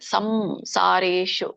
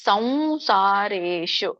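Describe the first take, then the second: First: The first nasal is a clear m sound. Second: The first nasal is a nasalized v sound. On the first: The speaker calls it wrong. "ತುಂಬಾ ಜನ ಹಂಗೆ ಹೇಳ್ತಾರೆ ಸಂಸಾರೇಶು ಅಲ್ಲ" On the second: The speaker calls it right. "ಏನ್ ಹೇಳ್ಬೇಕು ಸಂಸಾರೇಶು"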